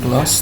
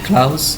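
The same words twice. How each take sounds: First: The word ends with an s sound. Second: The word ends with a z sound. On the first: The speaker calls it wrong. "bukan close ... bukan s" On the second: The speaker calls it right. "tapi close ... zen bukan s"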